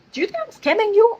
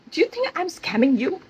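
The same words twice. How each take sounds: First: Defensive boss, escalated. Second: Higher, offended "scamming" question; defensive boss, first take. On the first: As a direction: throw it back harder, outraged. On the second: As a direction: ask it hurt and defensive. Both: Retold or imitated. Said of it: "he was become so defensive".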